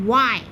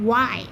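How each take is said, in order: Both takes have the same delivery.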